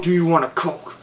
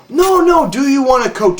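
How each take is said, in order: First: Said in the usual way. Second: Patronizing. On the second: Retold or imitated. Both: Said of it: "patronized me".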